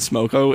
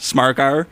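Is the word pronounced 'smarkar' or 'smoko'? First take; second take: smoko; smarkar. First: The vowels are plain 'oh' sounds. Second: The vowels are drawn out 'ar' sounds. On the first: This is the usual way the word is said. "it isn't smoko" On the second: This is how the singer says the word. "the way that he says it"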